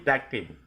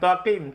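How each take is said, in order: First: The t sound is thin and light. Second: The t sound is thick and heavy. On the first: The speaker calls it right. "ta tipis" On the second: The speaker calls it wrong. "Jangan takim"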